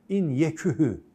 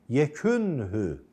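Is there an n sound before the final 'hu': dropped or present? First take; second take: dropped; present. First: The n sound before the ending is dropped. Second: The n sound before the ending is kept. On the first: The speaker calls it wrong. "yekühü desem telaffuzu zor" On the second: The speaker calls it right. "Telaffuz daha açık"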